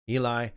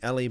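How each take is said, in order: First: The name has its common English pronunciation. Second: The name has its traditional, non-English pronunciation. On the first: This is the familiar form for English listeners. "in the conventional way that most people would, you know, in the English-speaking world today would pronounce it" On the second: This is the more traditional form of the name. "I know typically it would be Eli"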